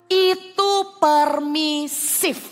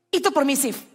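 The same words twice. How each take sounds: First: "Itu permisif" drawn out very slowly, each word weighted; slow it right down to drive it home; slow emphatic. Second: Said in the usual way. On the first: Shown as a demonstration. (ucapkan pelan dan tegas)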